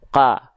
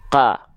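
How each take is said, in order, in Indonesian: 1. Vokalnya terdengar seperti A tipis. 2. Vokalnya terdengar seperti A tipis.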